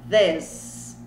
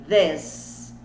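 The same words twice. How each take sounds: The two takes are said the same way.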